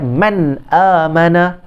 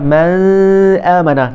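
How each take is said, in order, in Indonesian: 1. Bunyi n diucapkan dengan jelas tanpa dengung sengau. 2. Bunyi n disengaukan dan tidak dilepas dengan jelas. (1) "Kita baca man amana" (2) "Kita tak baca man amana"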